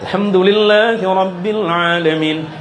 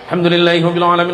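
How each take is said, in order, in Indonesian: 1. Dibaca dengan tempo sedang, yaitu tadwir. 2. Dibaca cepat tanpa berlama-lama, yaitu hadar. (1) "Yang tadwir" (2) "Yang hadar"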